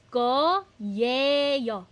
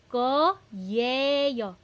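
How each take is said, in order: Both takes have the same delivery.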